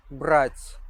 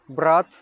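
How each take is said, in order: First: "брать" ending on a palatalized, breath-released T; soft T. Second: "Брат" loud, ending on a hard T. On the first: Teacher demonstrates tongue position, soft T in "брать". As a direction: exhale through the soft T of "брать". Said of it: "exhale a bit stronger". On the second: Teacher demonstrates tongue position, hard T in "Брат". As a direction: punch out "Брат" with no softening. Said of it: "soft and hard T sound". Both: Shown as a demonstration.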